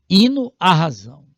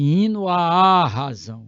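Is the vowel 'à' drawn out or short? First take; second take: short; drawn out. First: The 'à' is short and unstressed. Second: The 'à' is stressed and drawn out. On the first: The speaker calls it right. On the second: The speaker calls it wrong.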